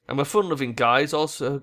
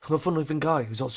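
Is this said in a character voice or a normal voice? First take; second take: normal voice; character voice. First: It is read in the speaker's ordinary voice. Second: It is read in a put-on character voice. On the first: The speaker calls it wrong. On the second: The speaker calls it right.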